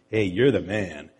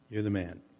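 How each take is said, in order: First: It sounds like casual, admiring praise. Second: It sounds like a grave, accusing charge.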